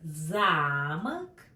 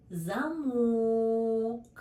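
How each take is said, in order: First: Замок with stress on the first syllable, ЗА-мок. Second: Замок with stress on the second syllable, за-МОК. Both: Shown as a demonstration. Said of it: "For example".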